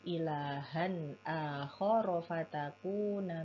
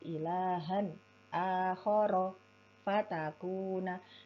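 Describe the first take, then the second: First: The phrase flows on without breaks. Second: The phrase is chopped up with pauses. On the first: The speaker calls it right. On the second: The speaker calls it wrong.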